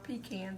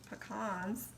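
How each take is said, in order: First: It is said the Georgia way. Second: It is said the Louisiana and Alabama way. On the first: The speaker calls it wrong. "if you're from Georgia" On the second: The speaker calls it right. "that's how we say it in Louisiana and Alabama"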